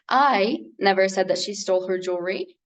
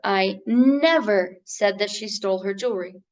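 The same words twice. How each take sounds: First: The word "I" carries the main stress. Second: The word "never" carries the main stress. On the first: Someone else said it. "It means though someone else says so" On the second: The speaker denies having said it. "meaning I deny it"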